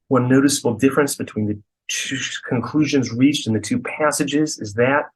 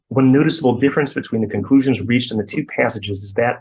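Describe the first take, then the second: First: The sentence is read slowly and deliberately. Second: The sentence is read quickly and rushed. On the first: The reader tries to take in the meaning. "I try to slow down" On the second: The reader is under pressure and takes nothing in. "the way we might read it in our heads when like the pressure's on"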